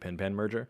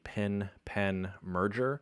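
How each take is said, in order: First: The two vowels before n sound the same. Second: The two vowels before n sound different.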